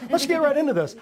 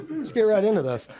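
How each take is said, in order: First: Fired-up call to get going; pumped-up higher repeat. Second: Said in the usual way. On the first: Real, not acted. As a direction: lift it higher and punch it like a hype man. Hypes up the start, repeated.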